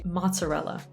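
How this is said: It is said with an English accent. "in English, we would say mozzarella"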